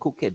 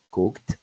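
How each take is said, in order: First: The ending is said as an extra syllable. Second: The ending is said as a plain t sound. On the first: The speaker calls it wrong. "siempre decimos" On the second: The speaker calls it right. "entonces los pronunciamos como t"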